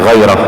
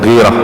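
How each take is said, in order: First: The first syllable has the vowel 'ai'. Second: The first syllable has the vowel 'i'. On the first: The speaker calls it right. "bacanya dibaca ghairah" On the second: The speaker calls it wrong. "bukan ghirah"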